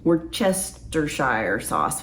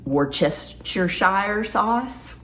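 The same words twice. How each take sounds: First: Slowed down and softer; slow, careful. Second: Slow and careful, rising at the end. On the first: Slow second try at the tricky sauce name. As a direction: draw the word out carefully. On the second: Careful slow tryout of a hard word. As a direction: sound it out slowly to a viewer. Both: Real, not acted. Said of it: "Why do I slow down when I say that".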